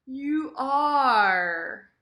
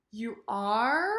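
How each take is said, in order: First: "are" loud, long, then falling; emphatic "You are". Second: "are" drawn up into a question; questioning "You are?". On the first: Teacher models emphatic statement, stressed "are". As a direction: insist firmly on "are". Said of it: "more emphasis on the verb". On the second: Teacher models question against statement, rising "are". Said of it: "sentences and questions". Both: Shown as a demonstration.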